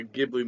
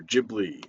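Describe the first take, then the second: First: Ghibli with a hard G. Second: Ghibli said as Jibli; soft G in Ghibli, as in gym. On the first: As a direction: say Ghibli starting with a G as in give. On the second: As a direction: start Ghibli with a J sound. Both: Shown as a demonstration. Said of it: "however you pronounce that".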